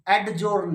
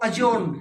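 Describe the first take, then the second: First: Adjourn as ad-journ, hard d before j; sounded d. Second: Adjourn as a-journ, no d; silent d. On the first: Teacher showing the mistake, d sounded in adjourn. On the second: Teacher correcting students, d silent in adjourn. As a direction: drop the d in adjourn. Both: Shown as a demonstration. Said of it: "adjourn नहीं".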